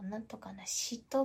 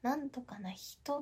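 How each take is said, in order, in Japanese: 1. 「人」という単語は sh の音で始まる。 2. 「人」という単語は h の音で始まる。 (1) "なんとかな人と言っちゃったりとか" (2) "なんとかな人とかを"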